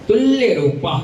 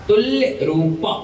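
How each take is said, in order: Both takes have the same delivery.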